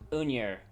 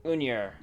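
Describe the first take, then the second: No difference in how they are said.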